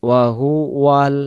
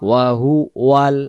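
Both takes have the same delivery.

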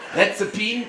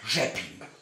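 First: The word starts with an R sound. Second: The word starts with a soft zh sound. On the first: The speaker calls it wrong. "so sagt es zumindest immer der deutsche Schaffner, ist leider falsch" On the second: The speaker calls it right. "RZ, das ist wie das J von Jacqueline"

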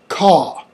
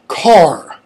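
First: The word is said with no r sound. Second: The word is said with an audible r sound. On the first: "British English" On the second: "American English"

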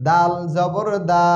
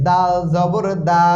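The two takes are said the same way.

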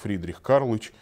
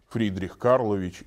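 First: The patronymic is said with syllables dropped. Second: The patronymic is said with every syllable. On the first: The speaker calls it wrong. "Нельзя сказать" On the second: The speaker calls it right. "Полное произношение распространяется"

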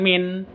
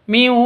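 First: The final n is pronounced clearly. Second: The n merges into the w, nasalized. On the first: The speaker calls it wrong. "bukan min" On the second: The speaker calls it right. "tapi miu waliyyin"

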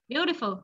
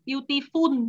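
First: The middle consonant is a clear f sound. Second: The middle consonant is not an f sound. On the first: The speaker calls it right. "Phờ nha" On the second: The speaker calls it wrong. "chứ không phải là beautiful đâu nha"

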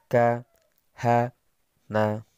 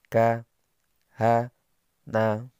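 No difference in how they are said.

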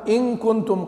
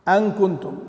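First: The first word starts with an 'i' vowel. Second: The first word starts with an 'a' vowel. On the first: "بكسر الهمزة" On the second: "بالفتح"

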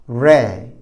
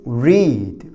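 First: The vowel is short, like red. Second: The vowel is long, like reed. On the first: It is the past tense. "우리 빨간색 red와 발음이 같아요" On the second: It is the present tense. "읽는다는 read"

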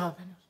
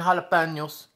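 First: It is said quietly in a plain accent. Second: It is said with a put-on Spanish accent. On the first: "So I end up just being very quiet" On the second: "fake that I have a Spanish accent"

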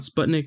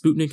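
First: Sputnik is pronounced the usual English way. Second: Sputnik is pronounced the way Russians say it. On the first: The speaker calls it wrong. "not Sputnik" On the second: The speaker calls it right. "a Russian person once told me that it's Sputnik"

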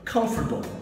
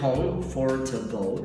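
First: The word is squeezed, with a syllable dropped. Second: Every syllable of the word is said in full. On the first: The speaker calls it right. "ele fala comfortable. E fica bom no final" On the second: The speaker calls it wrong. "se você quebrar ela direitinho, comfortable, você não fala assim"

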